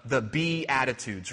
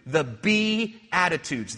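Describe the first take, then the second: First: Said in the usual way. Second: "be" drawn out and leaned on, slowly; stress on be. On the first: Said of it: "that little subtle play on words". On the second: Shown as a demonstration. Preacher pointing out the pun, stressing "be". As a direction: hit "be" in The be attitudes, as a pun. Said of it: "little subtle play on words that you can do".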